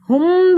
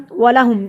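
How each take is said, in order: First: ہم higher and louder, with a long hummed m; wrongly held ghunnah. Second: ولہم closing briefly on the m; no ghunnah. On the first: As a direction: hold the m of ہم in a long hum. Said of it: "بھی نہیں پڑھا". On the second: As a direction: end ولہم at once, without humming. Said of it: "ہم بھی نہیں پڑھا". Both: Shown as a demonstration.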